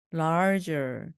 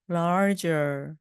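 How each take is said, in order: Both takes have the same delivery.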